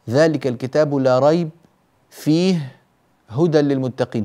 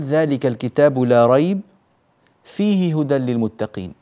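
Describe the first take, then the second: First: There are pauses after la rayb and fihi. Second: There is a pause after la rayb only.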